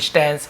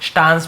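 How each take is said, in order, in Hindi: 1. स्वर 'cat' का आगे वाला 'a' है। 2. स्वर 'father' का खुला 'a' है। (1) "देखिए स्टैंस" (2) "स्टांस भी बोलते हैं"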